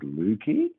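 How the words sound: The pitch goes up at the end.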